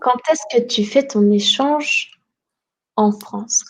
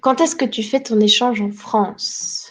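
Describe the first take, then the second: First: The sentence is said at a slower pace. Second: The sentence is said at a faster pace.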